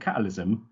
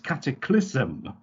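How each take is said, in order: First: The k sound before 'lysm' is missing. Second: A k sound comes before 'lysm'. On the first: The speaker calls it wrong. "as I was saying catalysm" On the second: The speaker calls it right. "it's cataclysm"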